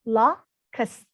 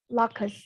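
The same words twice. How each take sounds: First: The word is said slowly and drawn out. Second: The word is said at normal speed.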